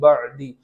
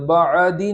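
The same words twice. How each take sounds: First: The ain is closed with no following vowel. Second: The ain is followed by an 'a' vowel. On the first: The speaker calls it right. "बल्कि बअदी" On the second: The speaker calls it wrong. "वहाँ ज़बर न हो जाए, बअदी नहीं पढ़ेंगे"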